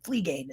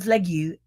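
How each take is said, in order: First: The surname is said as 'Flea Gain'. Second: The surname is said without a final 'gain' sound. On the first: The speaker calls it right. "Flea Gain is how you say her name" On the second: The speaker calls it wrong. "I'm terrible with uh, I, I, me and my pronunciation of names"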